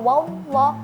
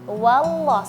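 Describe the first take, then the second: First: The w sound runs straight into the l. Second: The w sound is finished before the l. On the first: The speaker calls it wrong. "jangan wallah, enggak" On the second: The speaker calls it right. "tapi wallah, selesaikan huruf wawnya baru masuk ke huruf lam"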